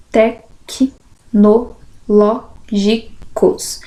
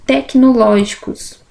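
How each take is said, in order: First: "tecnológicos" very slow, with a pause after each syllable. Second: Said in the usual way. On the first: Shown as a demonstration. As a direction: dictate "tecnológicos" in separate syllables. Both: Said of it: "Separação de sílabas".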